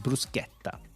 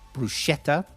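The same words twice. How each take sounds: First: The word is pronounced in an Italian way. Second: The word is pronounced in an English way. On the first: The speaker calls it right. "it's bruschetta. It's Italian. Say it right" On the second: The speaker calls it wrong. "all English people say bruschetta"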